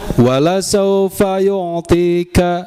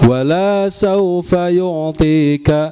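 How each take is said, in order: First: The vowel after the l is short. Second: The vowel after the l is long. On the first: God will surely give you. The speaker calls it right. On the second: God will not give you. The speaker calls it wrong. "la-nya panjang"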